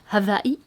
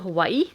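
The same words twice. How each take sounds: First: The middle consonant is a V sound. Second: The middle consonant is a W sound.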